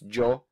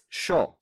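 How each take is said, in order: First: It begins with a hard j sound. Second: It begins with an sh sound.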